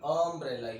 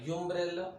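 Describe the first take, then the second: First: The word begins with a short 'uh' sound. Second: The word begins with a 'yoo' sound. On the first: The speaker calls it right. "बोलना देखो" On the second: The speaker calls it wrong. "तो नहीं बोलते ना"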